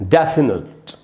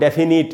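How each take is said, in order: First: The first syllable carries the stress. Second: The first syllable is not given the stress. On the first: The speaker calls it right. "डै में जो ए है वहीं पर stress है" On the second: The speaker calls it wrong. "इस प्रकार से नहीं पढ़ेंगे"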